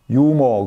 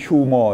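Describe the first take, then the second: First: The word begins without an h sound. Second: The word begins with an h sound. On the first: This is how the word is actually read. "유머 그렇게 읽잖아요" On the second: This follows how the word is written. "쓰기는 휴머 이렇게 쓰지만 H가 묵음되죠"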